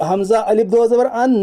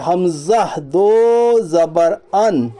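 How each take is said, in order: First: "الف" inserted before "دو زبر ان"; "حمزہ الف دو زبر ان" at ordinary talking speed; wrong reading example. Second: "حمزہ دو زبر ان" slow, long vowels stretched; drawn-out "دو" in "حمزہ دو زبر ان"; straight correct reading. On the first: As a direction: read "حمزہ الف دو زبر ان" quickly, naming the extra الف. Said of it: "اس طرح نہیں پڑھیں گے". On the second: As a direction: chant "حمزہ دو زبر ان" evenly, no الف. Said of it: "سیدھا پڑھیں گے". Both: Shown as a demonstration.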